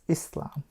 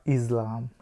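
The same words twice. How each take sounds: First: The middle consonant is a clear S sound. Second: The middle consonant is a buzzing Z sound. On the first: The speaker calls it right. "He pronounced that word right, it's not a Z sound" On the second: The speaker calls it wrong. "not Islam"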